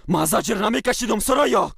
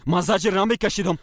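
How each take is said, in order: First: Yelled much higher and louder, peaking on the name; furious shouted denial; angry shout. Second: Shouted high and loud in denial; raised angry voice, much higher. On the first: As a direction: hurl it back at her, loudest on the name. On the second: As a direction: throw the denial at her. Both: Acted. Husband and wife quarrel.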